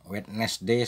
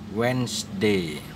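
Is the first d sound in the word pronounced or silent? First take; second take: pronounced; silent. First: The first d sound is clearly pronounced. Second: The first d sound is left out. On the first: The speaker calls it wrong. "Wednesday salah itu ya" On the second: The speaker calls it right. "Jadi nggak ada lagi bunyi D di situ"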